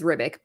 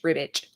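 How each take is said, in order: First: The name does not end like 'itch'. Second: The name ends with a sound like 'itch'. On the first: "I thought it was" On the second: "with an I, like itch"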